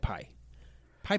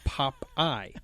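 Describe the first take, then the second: First: The first syllable sounds like 'pie'. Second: The first syllable sounds like 'pop'. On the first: A small child's attempt at the word. The speaker calls it wrong. "because I would say pie pie" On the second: The adult's correction of the word. The speaker calls it right. "no, it's Popeye"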